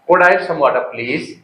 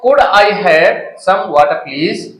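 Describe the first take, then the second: First: 'I have' is shortened to one syllable, 'I've'. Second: 'I have' is said as two full words. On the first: The speaker sounds fluent in English. The speaker calls it right. "ऐसे बोलोगे आप" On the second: The speaker sounds like someone who learned English with effort. The speaker calls it wrong. "Could आई हैव बोलोगे तो तुम्हें लगेगा यार कोई आदमी ने बड़ी मेहनत से सीख लिखा है इंग्लिश"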